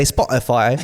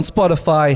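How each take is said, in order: First: "Spotify" imitated as another person says it; teasing copy of someone's "Spotify"; imitated pronunciation. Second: Said in the usual way. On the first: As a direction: mimic his way of saying "Spotify". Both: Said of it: "he likes to say Spotify".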